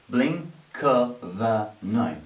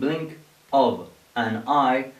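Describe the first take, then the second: First: The final consonants run into the next words. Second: Each word is said apart with small gaps. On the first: "you would hear people saying" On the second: "instead of saying blink of an eye"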